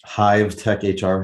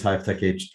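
First: "Hive Tech H R" slowed right down; slower, careful repeat. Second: Said in the usual way. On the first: Real, not acted. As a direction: say "Hive Tech H R" slowly, word by word. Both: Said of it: "I have to say that slower".

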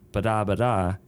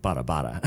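First: Ba-da, ba-da sung out as a beat, weight on each first syllable; scatting a rhythm to show syllable stress; rhythm demo. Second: Bada, bada dropped lower as the fixed accent pattern; a lower, self-correcting scat of bada bada; corrected rhythm. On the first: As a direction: tap out ba-da, ba-da like a melody line. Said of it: "accent on the first syllable". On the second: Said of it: "or no, that would be". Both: Shown as a demonstration.

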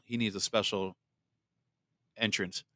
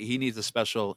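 First: Low, soft dramatic intro voice; announcer voice. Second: Said in the usual way. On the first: Shown as a demonstration. Host announcing a guest's grand entrance, low and hushed.

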